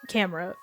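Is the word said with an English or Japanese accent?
English. It is said with an English accent.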